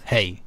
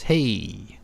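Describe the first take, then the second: First: "hey" clipped, said quick and curt; a short curt "hey", almost rude. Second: "hey" stretched long with a falling tune; a long friendly "hey"; drawn-out hey. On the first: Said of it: "so if it's short". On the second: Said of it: "But if it's hey". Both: Shown as a demonstration.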